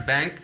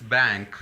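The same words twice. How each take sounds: First: Bank said without nasal, as the wrong version. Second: Bank with nasal ng, the correct model; right way. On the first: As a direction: bank as a mistake, plain n. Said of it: "It's not bank". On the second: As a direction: bank said lower, as the correct one. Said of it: "It's not bank, it's bank". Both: Shown as a demonstration.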